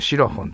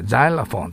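First: The word begins with a sh sound. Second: The word begins with a z sound. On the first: This is the Japanese pronunciation. "日本語ではこれシロフォンと言います" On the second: This is the English pronunciation. "ザイラフォンとなります"

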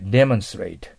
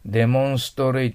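First: It is said in English, stressing the first syllable. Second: It is said as a Japanese loanword. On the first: The speaker calls it right. "アクセント前に持ってきて一緒に言わないとダメです" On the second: The speaker calls it wrong. "demonstrate というのが日本語です"

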